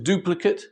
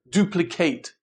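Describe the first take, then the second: First: The last syllable sounds like 'it'. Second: The last syllable sounds like 'ate'. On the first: It is used as a noun. "the noun is duplicate" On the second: It is used as a verb. "be pronounced ate"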